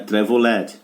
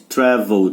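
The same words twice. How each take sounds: First: The -ed ending is an extra syllable. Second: The -ed ending adds no extra syllable. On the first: The speaker calls it wrong. "não é traveled" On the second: The speaker calls it right. "Não leu E, gente"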